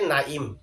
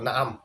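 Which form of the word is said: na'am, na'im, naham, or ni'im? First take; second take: na'im; na'am. First: The first vowel is a, the second is i. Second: Both vowels are a, with a throat sound between. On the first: "আইনের মধ্যে জের দিয়ে" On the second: "নুনেও জবর আইনেও জবর"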